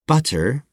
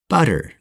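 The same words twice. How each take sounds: First: The middle consonant is a crisp, hard T. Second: The middle consonant is a quick, soft D-like flap. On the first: The speaker calls it wrong. "So instead of saying butter" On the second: The speaker calls it right. "we say butter"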